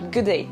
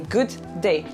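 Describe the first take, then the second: First: The two words are linked together. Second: The two words are said separately. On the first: The speaker calls it right. "You say good day" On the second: The speaker calls it wrong. "You don't say good day, like two different words"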